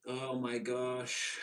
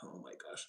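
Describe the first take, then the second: First: Slow, stretched gasp of disbelief; drawn-out oh my gosh. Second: Breathless hushed gasp, barely voiced; whispered oh my gosh. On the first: Retold or imitated. Imitating stunned onlookers, a drawn-out gasp. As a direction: let it hang, stunned. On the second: Imitating onlookers gossiping, a whispered gasp. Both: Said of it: "everybody is like".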